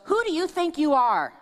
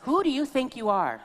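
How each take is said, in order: First: High, louder scolding challenge; a mother scolding her daughter. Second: High, louder scolding echo; mother's challenge repeated; mock scolding mother. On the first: Retold or imitated. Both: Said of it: "one of them would look at me and goes".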